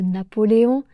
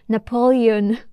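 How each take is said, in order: First: It is said with a French accent. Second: It is said with an English accent. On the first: "au lieu de" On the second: "avec un accent anglais"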